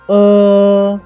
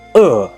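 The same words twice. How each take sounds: First: The pitch stays high and level. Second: The pitch falls sharply from high to low. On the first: "The first tone of uh is uh" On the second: "Last tone, uh"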